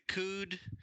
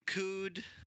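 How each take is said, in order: The two takes are said the same way.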